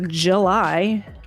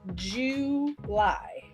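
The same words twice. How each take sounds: First: The two syllables are run smoothly together. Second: The two syllables are said clearly apart. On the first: "I guess you could say July" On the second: "Did you just separate July into J Lie? ... It's July"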